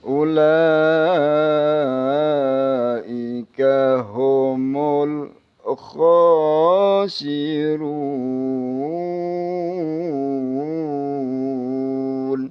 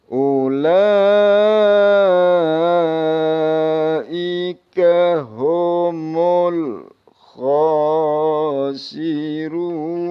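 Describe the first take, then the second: The two takes are said the same way.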